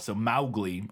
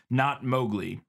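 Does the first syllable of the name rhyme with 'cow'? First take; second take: yes; no. First: The first syllable rhymes with 'cow'. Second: The first syllable does not rhyme with 'cow'. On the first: The speaker calls it right. "Rhyming with cow" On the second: The speaker calls it wrong.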